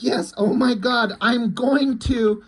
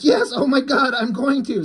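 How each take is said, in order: First: Higher and slow, stretched mock moan; slow, higher hammed-up ecstatic cry; drawn-out mock ecstasy. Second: Higher, hammed-up moans of pleasure; mock ecstatic cry, higher; mock ecstasy. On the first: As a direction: stretch every word like she's peaking. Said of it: "So she's like". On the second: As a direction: play her peaking, overdone. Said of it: "And she's like".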